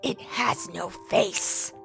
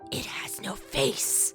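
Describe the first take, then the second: First: It is shouted at full volume. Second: It is whispered quietly.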